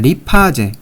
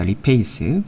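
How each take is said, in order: First: The word is said as ri-pa-je. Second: The word is said as ri-pei-seu. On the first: "우리가 리파제라고 부르도록 하겠습니다" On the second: "영어 이제 본토 발음으로는 이제 리페이스라고 합니다"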